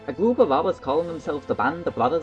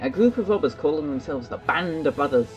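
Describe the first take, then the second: First: It is read in a put-on Irish-style accent. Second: It is read in the speaker's plain, normal accent.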